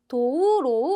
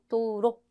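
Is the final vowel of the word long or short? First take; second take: long; short. First: The final vowel is drawn out long. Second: The final vowel is kept short. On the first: The speaker calls it wrong. "아니고" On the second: The speaker calls it right. "로는 짧게 발음하셔야 돼요"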